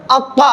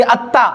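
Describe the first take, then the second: First: अक्वा as a heavy, full-mouthed doubled emphatic t with rounded "aw"; thick heavy articulation. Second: अत्ता with a thin, light t and open "aa"; thin light articulation. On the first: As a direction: thicken the consonant and vowel in अक्वा. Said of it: "मोटा करके पढ़ेंगे". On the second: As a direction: say अत्ता finely, without rounding or heaviness. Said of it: "आराम से पढ़ेंगे". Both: Shown as a demonstration.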